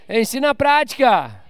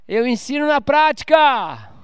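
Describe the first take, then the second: First: Light push on na in na prática; stress on na. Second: Slow, weighty delivery of prática; slow emphatic statement. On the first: Preacher repeating to the church, stress on na. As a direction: tap the word na. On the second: Preacher stressing prática to the church, slow. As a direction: lean on prática, slowly. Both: Shown as a demonstration. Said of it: "repeated for emphasis".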